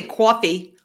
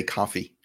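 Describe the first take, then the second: First: Coffee said with a rounded aw, kwawfee; her own coffee. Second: Coffee said as kahfee, open ah vowel; local coffee. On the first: Shown as a demonstration. Co-host insists her own coffee has a rounded aw. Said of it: "But I don't say coffee". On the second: Retold or imitated. Colleague mimics the local way of saying coffee, open ah vowel. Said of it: "out here, they say coffee".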